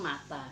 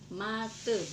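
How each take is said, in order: First: The final vowel is pronounced as a. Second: The final vowel is pronounced as e. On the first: The speaker calls it wrong. "bukan mata ya" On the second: The speaker calls it right. "kalian membacanya dengan mate"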